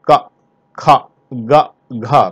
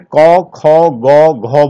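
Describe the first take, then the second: First: Each syllable ends in an open 'aa' vowel. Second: Each syllable ends in an 'au'-like vowel. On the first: This is the standard pronunciation. The speaker calls it right. "ये का है, का खा गा घा" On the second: This is how people in eastern Uttar Pradesh say it. The speaker calls it wrong. "पूर्वी उत्तर प्रदेश में इसे कौ खौ गौ घौ बोलते हैं, वो भी गलत है"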